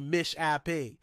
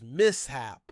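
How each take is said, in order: First: It uses the pronunciation common among Americans. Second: It uses the pronunciation presented as standard. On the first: The speaker calls it wrong. "many Americans say mishape" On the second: The speaker calls it right. "The correct pronunciation is mishap"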